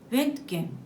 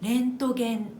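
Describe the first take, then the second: First: One syllable is stressed and lengthened over others. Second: All syllables have equal length and weight. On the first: "元のドイツ語は" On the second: "このように日本語では全ての音の長さが均等なんです"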